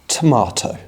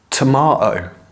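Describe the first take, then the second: First: The middle T is pronounced clearly. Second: The middle T is not pronounced. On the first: "you need to pronounce all of your T's clearly" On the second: "the T's in the middle of the word are not pronounced"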